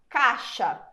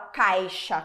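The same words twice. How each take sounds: First: The i glide almost disappears. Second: The i glide is fully pronounced. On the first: The speaker calls it right. "De modo bem simples, a gente fala caixa" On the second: The speaker calls it wrong. "ninguém fala caixa"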